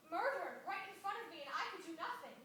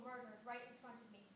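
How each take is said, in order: First: MURDERED punched high and loud; anguished emphasis. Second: Said in the usual way. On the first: Acted. Survivor telling schoolchildren of killings she witnessed, anguished and emphatic. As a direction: hit "murdered" hard, louder and higher, in anguish.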